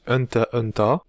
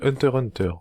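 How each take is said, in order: First: The middle x is not spoken at all. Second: The middle x is spoken between both words. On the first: The speaker calls it right. "le X ne se prononce pas" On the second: The speaker calls it wrong. "avec ma bonne prononciation de merde"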